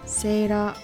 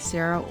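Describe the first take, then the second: First: The name is said with Japanese pronunciation. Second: The name is said with English pronunciation. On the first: The speaker calls it wrong. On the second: The speaker calls it right.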